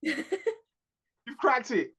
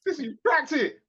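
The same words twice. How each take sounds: First: Very slow, stretched-out repeat; milk each word slowly; slow, savouring the joke; drawn out. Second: Laughing through the words; giggling tease; laughing, playful. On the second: Teasing, laughing at cohost. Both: Real, not acted.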